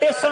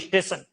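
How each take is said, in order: First: The word begins directly with a t sound. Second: The word begins with an added ee vowel. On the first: "वो ई और स नहीं बोलेगा" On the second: "ई बोलेंगे"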